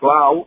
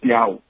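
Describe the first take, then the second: First: The word has a clear l after the first consonant. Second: The l becomes a y-like glide. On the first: "la clau" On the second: "o diem piau ... la gent d'allí pronuncia així"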